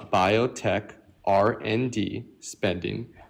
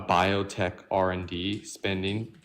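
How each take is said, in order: First: The phrase is spoken very slowly. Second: The phrase is spoken at a normal speed.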